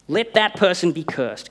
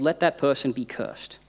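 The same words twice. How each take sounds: First: The line is said in a sudden angry tone. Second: The line is said in a calm, even tone. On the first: The writer suddenly becomes furious. The speaker calls it wrong. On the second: The writer keeps the same warm tone throughout. The speaker calls it right.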